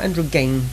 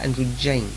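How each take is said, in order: First: The G is a hard G sound. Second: The G is a soft J sound. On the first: The speaker calls it wrong. "Not androgyne" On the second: The speaker calls it right. "but androgyne. The soft G is definitely right"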